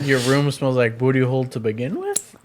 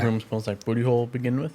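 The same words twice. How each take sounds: First: It ends rising, like a question. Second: It ends falling, like a statement.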